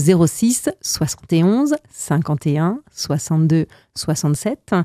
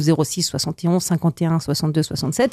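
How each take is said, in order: First: The number is said slowly. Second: The number is said quickly.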